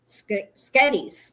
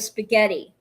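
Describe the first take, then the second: First: The word is shortened to two syllables, 'sketties'. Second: The word is said in full with three syllables. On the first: This is how it was said as a child. "I used to say, I want some sketties" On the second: This is the usual adult form. "instead of spaghetti"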